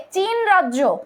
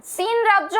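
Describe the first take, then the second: First: চীন said slowly with a "ch" onset; spelling pronunciation. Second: সিন said with an "s" onset; corrected pronunciation. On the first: Teacher first names the Myanmar state, চীন with a "ch". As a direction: read চীন as written, starting with "ch". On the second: Teacher corrects the state's name, সিন with an "s". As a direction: start সিন on "s" in place of "ch". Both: Shown as a demonstration. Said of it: "এটা উচ্চারণটা হচ্ছে সিন".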